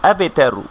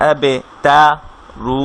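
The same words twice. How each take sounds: First: Said in the usual way. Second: আবে তা read, pause, then রু as a separate piece; syllables split apart by a pause; broken reading. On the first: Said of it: "কোথাও কোনো টান হবে না". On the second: Shown as a demonstration. Teacher shows students the wrong, broken reading. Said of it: "এভাবে করে আমরা পড়বো না".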